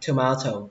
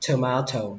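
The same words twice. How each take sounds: First: The stress falls on the second syllable. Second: The same.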